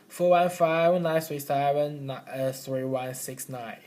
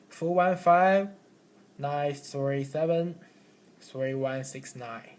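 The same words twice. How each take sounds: First: The digits run together without any pauses. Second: The digits are split into three groups by pauses. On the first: The listener cannot remember the number. The speaker calls it wrong. "we can't remember like this" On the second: The listener can remember the number more easily. The speaker calls it right. "we can divide it into three parts"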